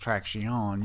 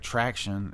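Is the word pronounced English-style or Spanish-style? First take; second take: Spanish-style; English-style. First: It is pronounced the Spanish way. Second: It is pronounced the English way. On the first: "is traction" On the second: "We say like traction"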